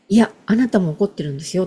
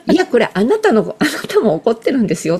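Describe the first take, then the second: First: A quicker, lighter coaxing insistence. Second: Insisting firmly, a little louder; firm insistence. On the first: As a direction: gently nudge them to admit it. (軽く促すように早口で) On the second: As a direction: tell them firmly they're angry too. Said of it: "って伝える". (きっぱり言い聞かせる) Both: Retold or imitated.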